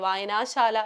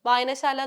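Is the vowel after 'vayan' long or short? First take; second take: long; short. First: The vowel after 'vayan' is long. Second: The vowel after 'vayan' is short. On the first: The speaker calls it wrong. "വായനാശാല എന്നുള്ള രീതിയിൽ നമ്മളത് പറയേണ്ട ആവശ്യമില്ല" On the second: The speaker calls it right. "വായനശാല എന്ന് പറഞ്ഞാൽ മതി"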